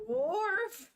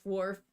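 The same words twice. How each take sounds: First: "Wharf!" yelped high and loud like a cartoon dog; mock dog bark. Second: Said in the usual way. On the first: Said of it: "But like". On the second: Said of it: "That's literally what he says".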